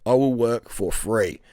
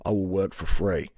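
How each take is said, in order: First: Slow pleading, leaning on will. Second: Said in the usual way. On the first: Retold or imitated. Job-seeker begging the receptionist for work, slow and pleading. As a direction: drag it out, stressing "will" as you beg.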